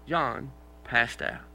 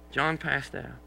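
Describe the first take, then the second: First: John passed out said very slowly; drawn-out, deadpan delivery; slow, weighty punchline. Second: Said in the usual way. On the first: Shown as a demonstration. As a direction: stretch each word for effect. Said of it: "deliberate slow repeat". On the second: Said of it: "deliberate repeat".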